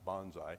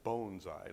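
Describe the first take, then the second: First: The first syllable does not sound like 'bone'. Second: The first syllable sounds like 'bone'. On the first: The speaker calls it wrong. "not bonsai, like I pronounced all my life" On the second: The speaker calls it right. "It's bonsai, like bone"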